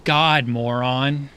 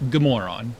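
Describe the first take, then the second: First: Slow, drawn-out "God, moron" with a loud, punched "God"; Swedish morning greeting. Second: "Good moron" run together fast, with "Good" stressed; said quickly. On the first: Teaching a Swedish good-morning greeting, slow and drawn out. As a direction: stretch out "God, moron" the way a Swede says it. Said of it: "You say". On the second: Showing the fast, natural Swedish greeting. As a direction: rattle off "Good moron" in one quick breath. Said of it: "you say it really fast". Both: Shown as a demonstration.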